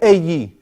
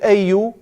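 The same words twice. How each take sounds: First: The word ends with an 'i' vowel. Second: The word ends with a 'u' vowel. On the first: The form changes after a preposition. "the أي is just because of the fi" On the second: It is the base form of the word. "Because that's the root"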